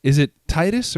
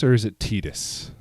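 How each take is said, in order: First: "Tidus" with a long i, like tie; first syllable of "Tidus" rhymes with tie; TY-dus pronunciation. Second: "Tidus" with an ee, like tea; first syllable of "Tidus" rhymes with tea; TEE-dus pronunciation. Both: Shown as a demonstration. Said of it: "Can we establish this early".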